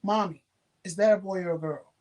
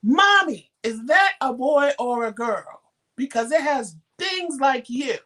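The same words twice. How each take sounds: First: Put-on cute little girl. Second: High, loud imitation of a little girl demanding an answer; loud insistent child. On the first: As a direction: lightly imitate a sweet little girl asking. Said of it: "first she was cute with it". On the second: Little girl keeps pestering her mother on the train, loud and insistent. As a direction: pipe up loudly, dragging out the question. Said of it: "now she's loud and ev-, drawing attention".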